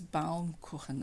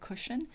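First: The ending sounds like German 'kookhen'. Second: The ending sounds like English 'cushion'. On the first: The speaker calls it right. "so it's Baumkuchen" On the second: The speaker calls it wrong. "I pronounce it like an English speaker such as myself would assume it sounds like. I say cushion"

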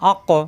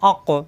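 First: The final q is released with a bounce. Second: The final q is released with a bounce.

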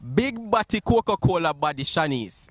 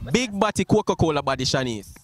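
First: It is said slowly. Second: It is said fast.

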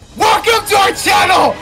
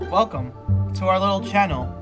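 First: It is said in an enthusiastic, lively way. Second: It is said in a flat, boring way.

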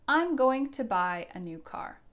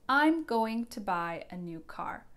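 First: Going to is said fully as two words. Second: Going to is said fully as two words.

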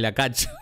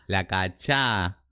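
First: The stress falls on the first syllable. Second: The stress falls on the last syllable. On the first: "otra es la cacha" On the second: "la cachá con tilde"

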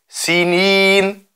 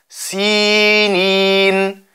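First: The i vowels are short. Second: The i vowels are lengthened. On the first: The speaker calls it wrong. "Wir sagen nicht Sinin" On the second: The speaker calls it right. "dass die Kasra vom Sin verdoppelt wird"

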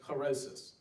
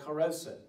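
First: The word ends with an s sound. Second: The word ends with a t sound. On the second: "a mixture called charoset"

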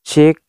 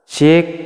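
First: A light echo is just starting to be heard. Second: A moderate echo follows the voice. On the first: "baru seperti ini itu echo-nya itu sudah mulai keluar" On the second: "Kita akan coba echo-nya itu di setengah"

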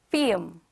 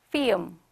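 No difference in how they are said.

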